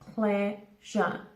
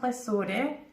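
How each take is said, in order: First: It sounds like the English word pleasure. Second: It sounds like the French word plaisir. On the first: The speaker calls it right. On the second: The speaker calls it wrong.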